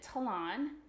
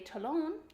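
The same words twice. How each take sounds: First: It is pronounced the English way. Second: It is pronounced the French way. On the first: It means a bird's claw. "in English, we pronounce it talon, um, like the word salon" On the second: It means the heel of a shoe. "In French, ... they say talon"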